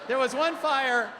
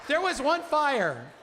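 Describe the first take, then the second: The two takes are said the same way.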